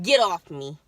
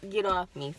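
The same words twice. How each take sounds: First: Loud sharp brush-off; snapping get off me. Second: Said in the usual way. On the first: Retold or imitated. Pushing mom away, loud retort. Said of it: "and I'm like".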